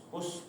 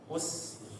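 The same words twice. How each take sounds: First: The final s hiss is soft and dull. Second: The final s hiss is sharp and narrow. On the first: The speaker calls it wrong. "jangan dibaca us" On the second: The speaker calls it right. "us tajam ya"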